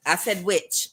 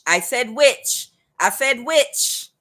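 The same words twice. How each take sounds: First: Said in the usual way. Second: "witch" drawn out slow and louder; stressed repeat. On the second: Shown as a demonstration. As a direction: lean hard on "said" and "witch", slowly.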